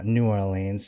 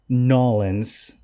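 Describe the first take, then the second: First: Said in the usual way. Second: "Nolans" run into one word, NAW-linz; local New Orleans pronunciation. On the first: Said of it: "it's just one". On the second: Retold or imitated. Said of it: "kinda saying Nolans".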